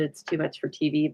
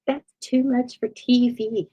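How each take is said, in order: First: Said in the usual way. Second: High, slow Southern drawl; grandma Capert's Southern accent. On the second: Retold or imitated. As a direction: imitate a Southern woman's drawn-out, higher-pitched speech. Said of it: "That's my grandma, but she always had a little Southern accent".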